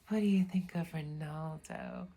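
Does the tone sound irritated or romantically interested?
romantically interested. It sounds romantically interested and warm.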